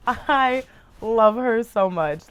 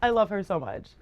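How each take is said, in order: First: Slow, drawn-out declaration; sincere slow gush; heartfelt gushing. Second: Said in the usual way. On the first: Real, not acted. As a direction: stretch it out with love. Slow emphatic repeat.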